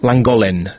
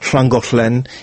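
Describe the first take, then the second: First: It starts with a plain L sound. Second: It starts with a hissing voiceless 'hl' sound. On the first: The speaker is not local. The speaker calls it wrong. "Они все говорят «ланголен»" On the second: The speaker is local. The speaker calls it right. "Вместо того, чтобы говорить «шлангохлен»"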